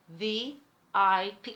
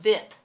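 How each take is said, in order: First: It is spelled out as three separate letters. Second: It is pronounced as a single word. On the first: The speaker calls it right. "it is in fact three" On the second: The speaker calls it wrong. "not V I P"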